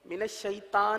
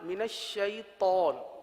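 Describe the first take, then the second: First: The t in shaitan is light and thin. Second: The t in shaitan is heavy and full. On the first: The speaker calls it wrong. "नहीं" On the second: The speaker calls it right. "तौ को पुर पढ़ेंगे"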